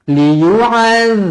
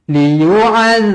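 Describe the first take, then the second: Both takes have the same delivery.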